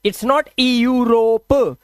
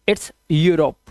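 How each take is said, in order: First: यूरोप read wrongly as "ee-urope" with a separate ई sound; slow, drawn-out wrong take of यूरोप. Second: यूरोप said "yoo-rop", starting straight on यू; the right way to say यूरोप, low and simple; correct reading of यूरोप. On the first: Teacher shows students the wrong reading, slowly. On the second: Teacher gives students the correct reading, plainly. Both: Shown as a demonstration.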